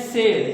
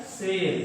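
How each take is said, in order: First: शेर said with a plain "s", as "ser"; mispronounced sibilant. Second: शेर said with "sh", as "sher"; correct sibilant. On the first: Teacher showing a common mistake, "s" in शेर. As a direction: swap the "sh" of शेर for "s". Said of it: "बड़ा सा के स्थान पर छोटे सा". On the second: Teacher giving the actual word, "sh" in शेर. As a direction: give शेर its proper "sh" sound. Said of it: "शब्द क्या है". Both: Shown as a demonstration.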